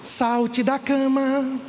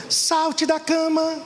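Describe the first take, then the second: First: Drawn-out slow call, higher pitched; meme quote. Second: Much higher, slow, sing-song wake-up cry; a singer's meme. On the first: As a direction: stretch it slowly like a wake-up call. (chamado lento e arrastado) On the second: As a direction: lightly imitate the famous meme singer. (imitação leve do meme, aguda e lenta) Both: Retold or imitated. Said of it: "O meme da Ana Paula Valadão".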